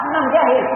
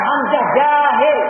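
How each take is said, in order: First: Said in the usual way. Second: Slow demo. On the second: Shown as a demonstration.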